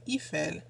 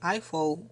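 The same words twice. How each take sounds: First: Eiffel is said with a French pronunciation. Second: Eiffel is said with an English pronunciation. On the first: "we say Eiffel" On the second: "in France we don't say Eiffel"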